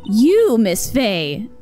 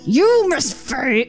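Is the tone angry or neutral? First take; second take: neutral; angry. First: It is said in a plain, neutral tone. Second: It is said in an angry tone.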